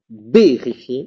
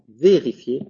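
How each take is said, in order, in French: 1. Il commence par un son b explosif. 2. Il commence par un son v doux. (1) "J'ai pas dit vérifier" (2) "j'ai dit vérifier"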